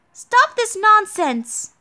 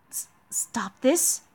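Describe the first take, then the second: First: High, slow, forceful acted rebuke; drawn-out indignant command; scolding. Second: Soft, slow stammered question; hesitant, rising, softer echo; taken aback. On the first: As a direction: scold a wayward knight, pitched up. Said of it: "Are you scolding me?". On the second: Acted. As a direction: echo the rebuke in quiet disbelief. Scolded knight echoes it in disbelief.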